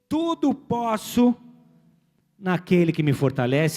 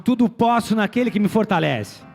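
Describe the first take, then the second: First: It is said at a normal, quieter volume. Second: It is said louder, with more force.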